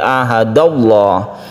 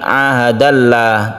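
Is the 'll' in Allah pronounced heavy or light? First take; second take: heavy; light. First: The 'l' in Allah sounds heavy and thick. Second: The 'l' in Allah sounds light and thin. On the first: The speaker calls it right. "tafkhim artinya tebal, ... tapi ahadallah" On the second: The speaker calls it wrong. "bukan ahadallah"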